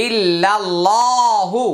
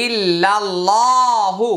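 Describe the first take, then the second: First: ইল্লাল্লাহু recited slowly with a rising melodic end; slow recitation. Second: ইল্লাল্লাহু chanted slowly in a recitation voice. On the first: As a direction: chant ইল্লাল্লাহু slowly, Quran style. (ধীরে তিলাওয়াতের সুরে) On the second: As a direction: draw out ইল্লাল্লাহু in a melodic chant. (তিলাওয়াতের সুরে ধীরে) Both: Shown as a demonstration. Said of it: "হা পেশ হু".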